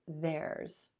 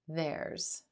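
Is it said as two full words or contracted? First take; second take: contracted; contracted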